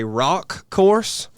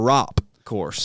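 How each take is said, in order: First: "rock" slow, ending in a clear k; contrasted pronunciation. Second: "rop" slow, ending in a clear p; contrasted pronunciation. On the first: Host reads a listener's question, "rock" with clear final k. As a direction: stretch "rock" and land the final k. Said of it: "is it a rock course or rop course". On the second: Host reads a listener's question, "rop" with clear final p. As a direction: stretch "rop" and close on the p. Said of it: "sounds like rock course". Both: Shown as a demonstration.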